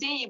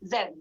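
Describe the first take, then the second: First: It is said the American way, as zee. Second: It is said the British way, as zed.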